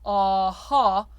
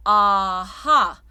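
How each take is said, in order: First: Aha with a heavy, back vowel; English aha. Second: Aha running over the roof of the mouth; lifted French aha. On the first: Coach showing the wrong English aha to singers. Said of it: "so it's not aha". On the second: Coach showing the lifted French aha to singers. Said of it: "everything is lifted up though". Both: Shown as a demonstration.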